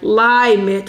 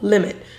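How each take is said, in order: First: The first vowel is long, like 'lie'. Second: The first vowel is short, like 'lim'. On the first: The speaker calls it wrong. "we're not saying L-I, like limit" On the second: The speaker calls it right. "we're saying lim, that syllable, limit"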